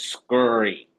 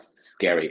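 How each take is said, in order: First: The vowel sounds like the one in curry. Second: The vowel sounds like the one in hairy. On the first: "Scurry like curry" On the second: "It's not scary"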